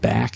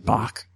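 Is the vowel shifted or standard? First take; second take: standard; shifted. First: The vowel is the standard American one. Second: The vowel is shifted toward an 'ah' sound. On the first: "Every time she says the word back" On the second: "it comes out as Bach"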